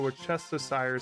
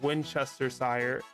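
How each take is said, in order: First: It starts with the sounds of Worcester. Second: It starts with the sounds of Winchester. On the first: The speaker calls it right. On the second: The speaker calls it wrong.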